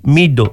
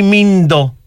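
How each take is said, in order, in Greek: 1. Το μεσαίο σύμφωνο δεν έχει ήχο n πριν από αυτό. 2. Το μεσαίο σύμφωνο έχει ήχο n πριν από αυτό. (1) "είναι μύτο, μύτο" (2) "όχι μύντο"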